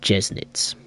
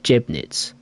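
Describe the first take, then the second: First: The middle consonant is an S sound. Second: The middle consonant is a B sound. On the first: The speaker calls it right. "you pronounce the weird-looking B as an S" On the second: The speaker calls it wrong. "I always called it Jebnitz, because it looks like a B"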